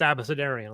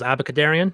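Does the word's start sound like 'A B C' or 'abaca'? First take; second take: A B C; abaca. First: The start sounds like the letters 'A B C'. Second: The start sounds like 'abaca', as in abracadabra. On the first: The speaker calls it right. "It's a book term. It's Abecedarian" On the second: The speaker calls it wrong. "for years I thought it was Abacadarian"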